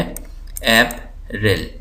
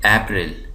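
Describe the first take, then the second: First: April slowly as AP, ril; syllable by syllable. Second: Said in the usual way. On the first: Shown as a demonstration. Teacher showing two syllables, April slowly split. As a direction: leave a gap inside April. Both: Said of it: "इसके अंदर दो syllable हैं".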